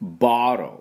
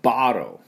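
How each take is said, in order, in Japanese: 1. 真ん中のtはほとんど発音しない、アメリカ式です。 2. 真ん中のtはほとんど発音しない、アメリカ式です。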